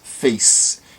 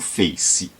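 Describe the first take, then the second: First: The word ends cleanly on the final consonant. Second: An extra vowel sound follows the final consonant. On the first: The speaker calls it right. "a gente diz face" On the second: The speaker calls it wrong. "e não face"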